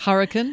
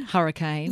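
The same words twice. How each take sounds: First: "Hurricane" said HUR-uh-kin with a weak last syllable; American hurricane. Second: "hurricane" ending in a full kane; Australian hurricane. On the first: Host gives the American version: "Hurricane" ending in kin. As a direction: clip the end of "Hurricane" to kin. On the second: Host gives the Australian version: "hurricane" ending in kane. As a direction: give the last syllable of "hurricane" its full ay. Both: Shown as a demonstration.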